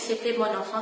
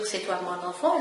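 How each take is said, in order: First: The phrase is said in a rustic dialect pronunciation. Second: The phrase is said in standard French pronunciation. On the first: "elle prononce mal ces mots. Donc au lieu de dire c'est toi mon enfant, elle dit" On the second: "au lieu de dire c'est toi mon enfant"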